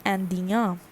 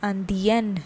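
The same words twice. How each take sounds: First: "Indien" as an-dya, nasal ending; masculine French pronunciation. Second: "Andien" as an-dyen, final n sounded; feminine French pronunciation. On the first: Teacher building the masculine word, "Indien" ending in nasal ya. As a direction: finish "Indien" on an open ya, no n. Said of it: "And the pronunciation is". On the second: Teacher showing the feminine change, "Andien" ending in a sounded n. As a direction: close "Andien" on a clear n. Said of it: "the pronunciation changes and becomes". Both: Shown as a demonstration.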